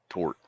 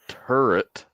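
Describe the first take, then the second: First: The word is squeezed into one syllable. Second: The word is said with two full syllables. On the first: The speaker calls it wrong. "I can't pronounce stuff right" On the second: The speaker calls it right. "it hurts my mouth even trying to pronounce it like that"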